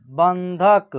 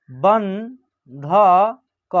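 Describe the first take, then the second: First: Said in the usual way. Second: बंधक very slowly, syllable by syllable, with a rising end; slow dictation of बंधक; broken into syllables. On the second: Shown as a demonstration. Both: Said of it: "तोड़ के पढ़िएगा".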